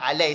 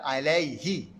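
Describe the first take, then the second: First: The word ends without the final hi syllable. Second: The word ends with the final hi syllable. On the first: The meaning 'upon him' is lost. The speaker calls it wrong. "bukannya alai saja" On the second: It means 'upon him'. The speaker calls it right. "kalimah hi tu kena ada"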